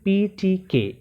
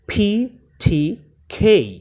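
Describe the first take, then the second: First: The consonants are said without a puff of air. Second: The consonants are said with a puff of air. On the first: This is how local speakers say it. The speaker calls it wrong. "আমরা উচ্চারণ করি পি টি কে" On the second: This is how native speakers say it. The speaker calls it right. "তারা উচ্চারণ করে এখানে ফি টি খেই"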